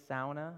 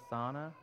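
First: "Sauna" said SOW-nuh, first vowel as in "now"; Finnish pronunciation. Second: "sauna" said SAH-nuh, a single open vowel; old, familiar pronunciation. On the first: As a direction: say "Sauna" with an OW sound up front. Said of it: "I think I'm saying that right". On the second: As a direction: say "sauna" with AH, no OW glide. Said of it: "I used to call it". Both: Shown as a demonstration.

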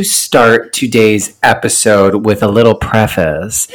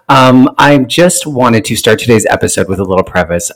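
First: Out of breath after a run; wheezing, catching breath between words; wheezy voice. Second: Said in the usual way. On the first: Real, not acted. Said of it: "oh my God, I'm wheezing". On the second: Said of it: "Clearly, I'm out of shape".

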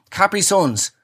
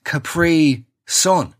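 First: Said in the usual way. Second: "Capri Sun" drawn out slowly as kuh-PREE, pause, SUN; Capri like the island. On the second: Shown as a demonstration. Explaining the drink's name, slow kuh-PREE in "Capri Sun". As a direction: say "Capri" slowly with the second syllable stressed, then "Sun". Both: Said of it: "As in the sunshine on the island of Capri".

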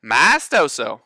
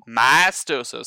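First: "Maestoso" again, a bit louder, my-STOH-soh for the class to echo; repeat-after-me prompt. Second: "Maestoso" said clearly as my-STOH-soh, falling at the end; model pronunciation. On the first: Teacher prompting students to say "Maestoso" back. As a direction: say "Maestoso" firmly as my-stoh-soh so they copy it. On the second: Band teacher modelling "Maestoso" for students to repeat. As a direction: give "Maestoso" slowly, syllable by syllable: my-stoh-soh. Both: Shown as a demonstration.

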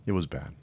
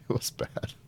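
First: Said in the usual way. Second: Breathy laughing repeat, much softer; half-laughed under the breath; laughing whisper. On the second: Real, not acted.

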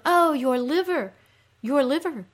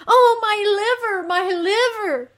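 First: High, groaning sympathy lament; echoed groan. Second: Very high, loud wail; agonized moan. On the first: Creatures commiserating with the suffering queen, echoed groan. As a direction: groan along with her in shared pain. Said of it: "the creatures groan". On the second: Underworld queen lamenting her aches, agonized moan. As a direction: cry out in exaggerated pain. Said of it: "she says". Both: Acted.

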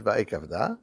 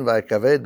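First: Va'ekavda, ending in an open -da; va'ekavda, last syllable "dah"; read-aloud form. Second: Va'ekaved, ending in a closed -ved; va'ekaved, last syllable "veid"; written form. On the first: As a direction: say va'ekavda with the final "ah" sounded. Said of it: "but we read it va'ekavda". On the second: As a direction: say va'ekaved as written, without a final "ah". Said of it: "It's written va'ekaved". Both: Shown as a demonstration.

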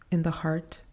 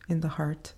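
Both takes have the same delivery.

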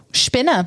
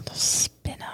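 First: Whispered Spinner said as shpinner, sh sound at start; shpinner pronunciation. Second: Said in the usual way. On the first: Shown as a demonstration. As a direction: say Spinner with shp like German. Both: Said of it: "That's actually how you say the spinner".

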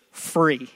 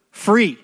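First: Said in the usual way. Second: Free called out higher and louder; stress on Free. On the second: Shown as a demonstration. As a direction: hit the word Free hard. Repeated word, louder and higher.

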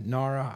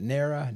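First: "nara" said NAH-ruh, with an open AH; alternative pronunciation. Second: "nara" said NAIR-uh, rhyming with Sarah; first-vowel variant. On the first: Unsure speaker offering the other option for the acronym, "nara" as NAH-ruh. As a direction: say "nara" with AH in the first syllable. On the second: Unsure speaker trying out the agency's acronym, "nara" as NAIR-uh. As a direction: say "nara" with an AIR sound in the first syllable. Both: Shown as a demonstration. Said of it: "I'm not sure how they pronounce it".

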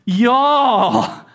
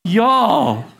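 First: Drawled southern y'all, said as jaw; a Texan y'all thrown to the room. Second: Southern y'all. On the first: Pastor has the congregation look around and say it, southern. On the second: Pastor repeating it for the congregation, southern drawl. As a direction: drop it easy, Texan style. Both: Shown as a demonstration. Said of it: "can you look around and say that?".

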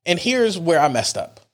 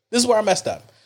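First: Said in the usual way. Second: "where" pitched higher and punched; stress on where. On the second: Shown as a demonstration. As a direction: lift the word "where" for emphasis.

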